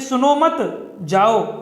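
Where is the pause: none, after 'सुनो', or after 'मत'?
after मत. There is a pause after 'मत'.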